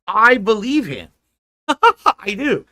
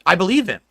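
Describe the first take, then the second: First: Slow, loud, high "I believe him" with a laugh; emphatic, laughing. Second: Said in the usual way. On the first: Real, not acted. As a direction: stress every word of "I believe him" slowly, then laugh. Repeats, emphatic, then laughs.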